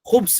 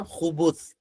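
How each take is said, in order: First: No vowel follows the b sound. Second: A short u vowel follows the b sound. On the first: It means evil or wickedness. "बा के सुकून के साथ" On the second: It refers to male jinn. "खा पर पेश और बा के ऊपर भी पेश"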